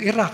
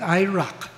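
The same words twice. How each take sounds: First: It is said without an American pronunciation. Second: It is said with an American pronunciation. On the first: "Yung Iraq" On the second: "nagiging Iraq"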